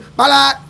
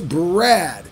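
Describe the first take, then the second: First: The name is said as two syllables, Balat. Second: The name is said as one syllable, Brad. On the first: The speaker calls it wrong. "Oh, you mean Balat? No, it's not" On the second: The speaker calls it right. "It's Brad"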